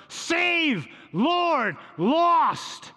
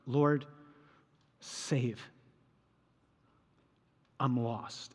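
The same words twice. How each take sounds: First: Much higher and louder, yelling over a storm; screamed plea. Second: Quiet prayer. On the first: Retold or imitated. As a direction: scream each word over the wind. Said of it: "You have to scream". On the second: Shown as a demonstration. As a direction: lower and softer, a pleading prayer. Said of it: "this is how I pray with this scene".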